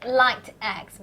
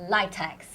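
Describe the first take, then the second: First: "light X" split, with the t closing "light"; two separate words. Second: "litex" blended as LIE-tex; run together as one. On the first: Host suggests the literal name, "light X" as two words. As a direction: say "light X" as LIGHT, then EX. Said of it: "it should be light". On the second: Host gives the name actually used, "litex" as LIE-tex. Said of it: "but we call it the". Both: Shown as a demonstration.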